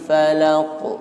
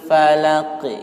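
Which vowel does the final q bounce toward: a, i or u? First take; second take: u; i. First: The final q bounces toward a u sound. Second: The final q bounces toward an i sound. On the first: "Boleh mantul ke dhammah? Boleh" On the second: "Kita boleh mantul ke kasrah"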